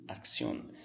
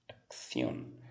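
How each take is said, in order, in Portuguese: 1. As consoantes do meio soam como ks. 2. As consoantes do meio soam como kth. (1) "vai ter um som de K S" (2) "se for na Espanha seria acción, acción, língua entre os dentes"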